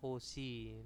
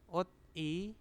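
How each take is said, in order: First: The final consonant moves into the next syllable. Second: The syllables are said separately, final consonant kept.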